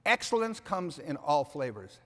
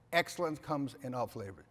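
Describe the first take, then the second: First: "excellence comes in all flavors" slow and weighty, "excellence" stressed; driving home "excellence" as the key word; emphatic message. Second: Said in the usual way. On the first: Shown as a demonstration. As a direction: land it slowly, weight on "excellence".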